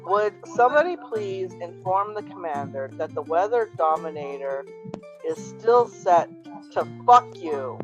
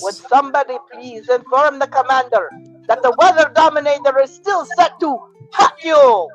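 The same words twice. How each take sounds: First: It is read in his ordinary voice. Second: It is said in a Baroness impression.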